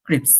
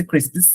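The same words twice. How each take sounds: First: ক্রিপস with plain "ps" ending; American pronunciation. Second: ক্রিসপস with s on both sides of p; UK pronunciation. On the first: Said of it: "আবার আমেরিকাতে বলতেছে". (American উচ্চারণে ক্রিপস) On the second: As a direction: say ক্রিসপস as in Britain, "sps" ending. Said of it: "এটা UK তে বলতেছে". (যুক্তরাজ্যের উচ্চারণে ক্রিসপস) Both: Shown as a demonstration.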